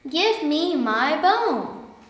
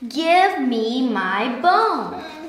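First: It is said a little louder. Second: It is said loudest of all.

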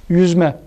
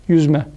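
Both takes have the same delivery.

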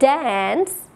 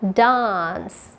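First: It has an American accent with a flat 'a' vowel. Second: It has a British accent with a long 'ah' vowel. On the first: "On American accent again"

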